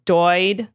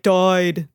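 First: Drawn-out "doid" in a mock Midwest accent. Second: "died" with an oi vowel, mock Canadian. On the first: Comparing it with Canadian, slow Midwest "doid". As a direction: try "doid" with a Midwest vowel. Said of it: "maybe Midwest is more like". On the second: Showing the Canadian accent, "died" said as "doyed". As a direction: bend "died" toward "doyed", Canadian-style. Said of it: "with the Canadian, if you can throw in". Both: Shown as a demonstration.

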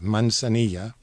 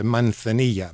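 First: Manzanilla with s for the z, "man-sa-NEE-ya"; s pronunciation. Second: Manzanilla with th for the z, "man-tha-NEE-ya"; Castilian pronunciation. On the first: Guest repeating the wine's name, s sound in Manzanilla. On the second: Guest naming the wine, Castilian th in Manzanilla. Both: Shown as a demonstration.

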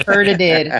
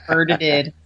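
First: Laughing through the word. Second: Said in the usual way. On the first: Real, not acted. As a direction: giggle out the mocking repeat. Mocking a friend's "hurted.

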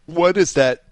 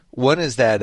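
First: Words jolted by a sudden hiccup. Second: Said in the usual way. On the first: Real, not acted. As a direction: hiccup breaks into the phrase. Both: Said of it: "excuse me, I just hiccuped".

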